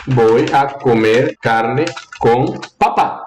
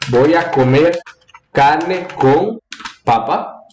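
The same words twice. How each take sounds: First: Slow, word by word, papá rising onto a stressed last syllable; stress on final syllable. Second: Measured phrases with pauses, papa stressed on its first syllable. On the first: Teacher reading out as she types, stress on final syllable of papá. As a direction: spell it out slowly, weight on the final PÁ of papá. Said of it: "começa uma entonação baixa e sube". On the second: Teacher reading out as she types, stress on first syllable of papa. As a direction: dictate it in chunks, weight on the first PA of papa. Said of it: "começa uma entonação mais alta e desce".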